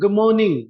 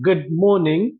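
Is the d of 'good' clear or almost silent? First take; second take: silent; clear. First: The d is almost silent, gliding into the m. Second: The d of 'good' is fully pronounced. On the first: "ये ड almost silent हो जाएगा, और म prominent हो जाएगा" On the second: "इसका सही उच्चारण जो है"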